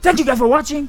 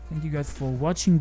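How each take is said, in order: First: It is said loudly, with high energy. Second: It is said flatly, with low energy.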